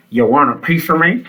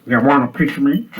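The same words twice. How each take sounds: First: Said in the usual way. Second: Tough guy picking a fight; fighting talk. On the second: Shown as a demonstration. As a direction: say it like you're squaring up. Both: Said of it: "you got to say it in that voice".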